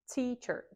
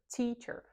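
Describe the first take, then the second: The two takes are said the same way.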